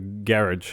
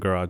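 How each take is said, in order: First: It is said with a British pronunciation. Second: It is said with an American pronunciation. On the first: This is how the English family said it. "They called it the the garage ... because they're from England" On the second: This is how it is said locally today. "instead of the garage"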